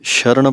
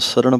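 First: The word begins with a sh sound. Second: The word begins with an s sound. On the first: The speaker calls it wrong. "ਸ਼ਰਨ ਪਾਠ ਨਹੀਂ ਬੋਲਣਾ" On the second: The speaker calls it right. "ਸਰਣ ਪਾਠ ਹੈ, ਸੱਸਾ ਪੈਰ 'ਚ ਬਿੰਦੀ ਨਹੀਂ ਲਾਉਣੀ"

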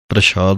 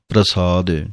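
First: The middle consonant is an 'sh' sound. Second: The middle consonant is a plain 's' sound. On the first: The speaker calls it wrong. "ਨਹੀਂ ਕਹਿਣਾ ਹੈ" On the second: The speaker calls it right. "ਪਹਿਲਾਂ ਤਾਂ ਉਚਾਰਨਾ ਹੈ"

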